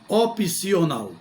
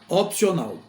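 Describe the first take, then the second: First: An extra i vowel separates the p and c. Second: The p and c join with no vowel between. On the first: The speaker calls it wrong. "e não opcional" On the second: The speaker calls it right. "vai aglutinar aí as duas consoantes"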